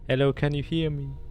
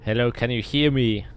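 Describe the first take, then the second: First: The phrase sounds like a faint distant echo. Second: The phrase is shouted loudly. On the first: The sound echoes back from far away. "actual echoes" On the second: The illusion's sound rings out. "Shout out"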